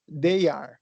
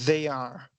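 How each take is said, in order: First: The first word starts with a d sound. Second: The first word starts with a th sound. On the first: It sounds like the word for day. The speaker calls it wrong. "a pessoa fala assim, ó, they are. E aí já começa o problema, porque day é dia" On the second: It means they are. The speaker calls it right. "como é que eu falo eles são ou elas são? Falo they, they are"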